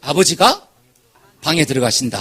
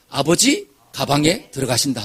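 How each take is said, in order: First: The pause comes after abeojiga, before bang. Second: The pause comes after abeoji, before gabang.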